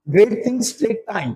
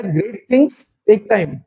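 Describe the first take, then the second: First: Very slow, every word weighed; teacher stating a proverb slowly. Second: Very slow, spaced-out words; teacher repeating the proverb. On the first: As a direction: lay the saying out slowly. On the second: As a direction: repeat it slowly for them to copy. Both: Shown as a demonstration. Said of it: "एक word होता है".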